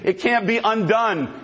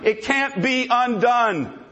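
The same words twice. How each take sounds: First: Said in the usual way. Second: "It can't be undone" said at x0.5, each word spaced, stress on "can't"; slowed, weighty "It can't be undone"; slow emphatic repeat. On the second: Shown as a demonstration.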